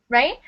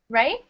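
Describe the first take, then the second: Both takes have the same delivery.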